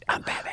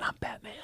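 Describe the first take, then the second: First: Softer, laughing through it; laughing Batman punchline; laughing Batman line. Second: Hushed, softer Batman whisper; a quick whispered Batman impression. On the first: Retold or imitated. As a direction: retell the punchline while laughing. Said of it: "I went". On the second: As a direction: whisper it like a gravel-voiced Batman. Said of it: "and I said".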